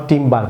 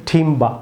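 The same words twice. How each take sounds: First: টিম্বার with the r sounded, the wrong way; টিম্বার as learners wrongly say it; wrong timber. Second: টিম্বা with no r, British style; টিম্বা ending open, without the r; correct timber. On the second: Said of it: "বলুন টিম্বা". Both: Shown as a demonstration.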